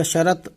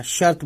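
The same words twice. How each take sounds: First: "شرط" as two syllables, sha-rat; wrong pronunciation. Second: "شرط" as one syllable, shart; correct pronunciation. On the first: Teacher warning learners off a mistake, "شرط" said sharat. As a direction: put an extra a before the t in "شرط". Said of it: "ایسے کچھ نہیں کہنا ہے". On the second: Teacher correcting to the proper form, "شرط" said shart. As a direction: close "شرط" on r-t with no vowel between. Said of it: "بولنا ہے". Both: Shown as a demonstration.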